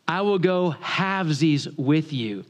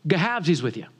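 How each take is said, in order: First: Slow, word-by-word repeat; very slowly. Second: Put-on thick rural Southern accent, words run together; unintelligible country dialect. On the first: Retold or imitated. Country boy repeats for a Yankee, very slowly. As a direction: spell it out slowly, each word apart. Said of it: "say that again very slowly". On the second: Young man repeats himself to puzzled homeowner, slurred country accent. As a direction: mumble it as one word in country dialect. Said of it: "I thought he was speaking Wookiee".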